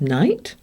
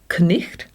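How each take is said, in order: First: No throaty sound comes before the T. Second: A throaty friction sound comes before the T. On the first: This is the modern pronunciation. "now we use night" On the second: This is the old pronunciation. "night used to be pronounced knicht"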